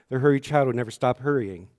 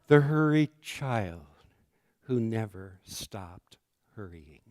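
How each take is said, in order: First: The title is said quickly, without a breath. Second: The title is said slowly, after a breath.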